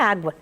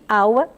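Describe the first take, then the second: First: The word is said with the g sound. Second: The word is said without the g sound. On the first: This is the normal form of the word. The speaker calls it right. "é muito importante nós falarmos o vocabulário normal" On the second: This is how a small child says it. The speaker calls it wrong. "ela vai repetir aua"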